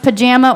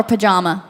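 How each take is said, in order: First: "pajama" with the middle A as in jam; short-A pronunciation. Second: "pajama" with the middle A as in father; broad-A pronunciation. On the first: Host quizzes guest on pronunciation, "pajama" with A as in jam. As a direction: say "pajama" rhyming its middle with ham. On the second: Host offers guest the other option, "pajama" with AH as in father. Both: Shown as a demonstration. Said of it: "is it pronounced pajama or pajama".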